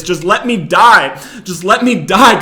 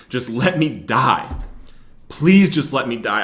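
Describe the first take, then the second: First: Higher, louder, slow desperate yell; yelling at God. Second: Tearful plea. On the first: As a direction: shout the plea at God. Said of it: "I started yelling at him". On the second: Praying in the car while weeping. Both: Retold or imitated.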